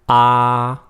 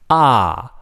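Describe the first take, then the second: First: The pitch stays high and level. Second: The pitch falls sharply from high to low. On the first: "The first one is a high flat tone" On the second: "the fourth one is a falling tone"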